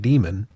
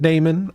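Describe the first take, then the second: First: The first vowel sounds like 'dee'. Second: The first vowel sounds like 'day'. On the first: This is how others may say it. "I don't care if you pronounce it Demon" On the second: This is the owner's preferred pronunciation. "I pronounce it Damon"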